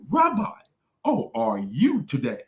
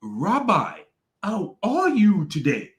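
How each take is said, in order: First: Sweet, practiced greeting; mock rehearsed greeting. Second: Higher, slow, fake-sweet greeting; overly polite, rehearsed-sounding; mock rehearsed greeting. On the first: Mocking the guest's rehearsed hello to the Rabbi. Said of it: "He said". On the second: Imitating the guest greeting the Rabbi, fake and sweet. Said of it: "he was like".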